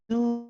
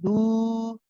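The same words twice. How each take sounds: First: The vowel sounds lighter, carried forward. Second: The vowel sounds heavy, held at the back. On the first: The speaker calls it right. "a little bit lighter" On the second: The speaker calls it wrong. "instead of saying do"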